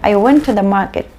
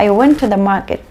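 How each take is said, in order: First: The word 'to' is reduced to a weak 'tuh'. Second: The same.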